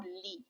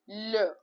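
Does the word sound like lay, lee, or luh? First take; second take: lee; luh. First: The vowel sounds like ee in lee. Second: The vowel is a short neutral uh. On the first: The speaker calls it wrong. "or li" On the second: The speaker calls it right. "Pronounce it as L"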